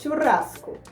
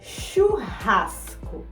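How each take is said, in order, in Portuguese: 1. Ela é pronunciada do jeito que falantes de espanhol dizem. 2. Ela é pronunciada do jeito que falantes de português dizem. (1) "Em espanhol é churrasco" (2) "em português é churrasco"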